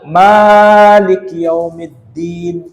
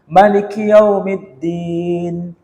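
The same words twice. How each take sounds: First: The vowel after the first m is long. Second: The vowel after the first m is short. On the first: This follows the Hafs reading. "panjang itu Hafiz" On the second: This follows the Warsh reading. "Mimnya dibaca pendek. Itu Warsh"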